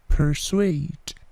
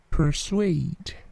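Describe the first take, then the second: The two takes are said the same way.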